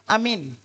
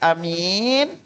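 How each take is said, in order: First: The vowels are all short. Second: The vowel after the m is stretched long. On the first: It means safe. "Yang pertama lapasnya amin" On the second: It means honest. "ubah diminnya yang dipajangin menjadi amin"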